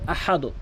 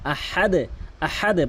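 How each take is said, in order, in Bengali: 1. শেষের d সমতলভাবে শেষ হয়, কোনো ঝংকার নেই। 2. শেষের d প্রতিধ্বনির মতো ঝংকার দিয়ে ছাড়া হয়। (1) "অধিকাংশ লোক কি বলে আহাদ" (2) "আহাদ আহাদে বলতে হবে"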